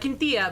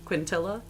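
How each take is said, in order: First: The name is said with a Spanish accent. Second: The name is said with an English accent. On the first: "My Spanish man is like" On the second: "It's probably just"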